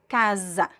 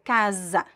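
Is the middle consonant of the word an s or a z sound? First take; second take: z; z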